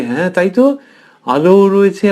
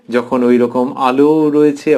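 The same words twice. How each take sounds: First: Higher, louder burst of wonder on আলো রয়েছে; a child's delighted surprise; amazed agreement. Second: Said in the usual way. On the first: Retold or imitated. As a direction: realise it's true and marvel. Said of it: "সেও দেখে অবাক হয়ে গেল". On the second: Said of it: "narrator restates calmly".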